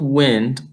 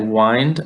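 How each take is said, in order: First: The vowel is a short i sound. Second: The vowel is a long I sound. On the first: It means moving air. "the letters all look normal, normal afterwards? So that's telling us that it's that I sign sound" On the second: It means to wrap around. "there's a little line over the I, telling us it's the long I"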